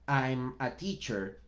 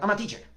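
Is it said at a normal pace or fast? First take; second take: normal; fast. First: It is said at a normal, fluid pace. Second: It is said very fast.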